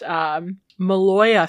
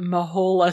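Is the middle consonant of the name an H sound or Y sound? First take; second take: Y sound; H sound. First: The middle consonant is a Y sound. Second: The middle consonant is an H sound. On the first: The speaker calls it right. "I learned that it is pronounced Maloya Snake" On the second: The speaker calls it wrong. "And not Mahola Snake"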